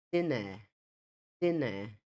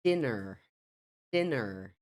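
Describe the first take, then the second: First: British "dinner" with silent r; non-rhotic British dinner; British pronunciation. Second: American "Dinner" with a sounded final r; American pronunciation. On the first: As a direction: say dinner as "DIN-uh". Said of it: "A última que eu falei foi o inglês britânico". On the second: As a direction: say Dinner as "DIN-er". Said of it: "Veja a diferença aí entre as duas variantes". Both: Shown as a demonstration.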